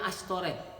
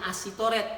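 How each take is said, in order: First: The middle is sounded as a single sh. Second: The middle is sounded as separate s-i. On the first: This is how it is read. The speaker calls it right. "tapi bacanya Ashtoret" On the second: This is how it is written. The speaker calls it wrong. "Tulisannya Asitoret"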